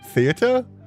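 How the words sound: It is said in a fancy, posh manner.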